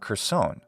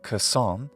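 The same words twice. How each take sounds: First: It is said in an American accent. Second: It is said in a British accent. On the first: "in general American pronunciation" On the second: "In British English, it would be"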